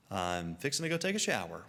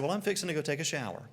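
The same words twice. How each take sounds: First: Lower, unhurried restatement; matter-of-fact repeat. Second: Rapid offhand remark, pitched up; casual quick announcement. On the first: Traveler repeating himself to baffled Canadians, low and matter-of-fact. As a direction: repeat it evenly, dropping the pitch. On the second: Traveler casually telling the mission group, quick and offhand. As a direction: toss it off quickly and lightly. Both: Retold or imitated.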